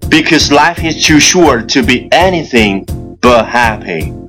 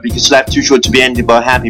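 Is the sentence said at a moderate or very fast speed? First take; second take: moderate; very fast. First: It is said at a moderate, steady speed. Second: It is said very fast in one breath. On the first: "跟上我的节奏" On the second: "一口气最快语速"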